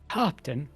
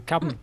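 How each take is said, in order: First: It has a drawn-out, half-British first vowel. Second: It is said in a short American accent.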